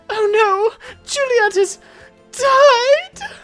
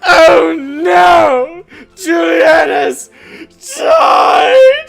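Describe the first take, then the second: First: It is said fairly quietly. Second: It is said very loudly, almost screamed.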